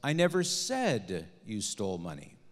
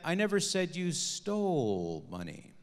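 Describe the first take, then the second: First: The stress is on the word said. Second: The stress is on the word stole.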